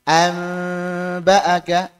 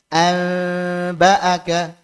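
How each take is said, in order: First: The n is nasalized and hidden before b. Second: The same.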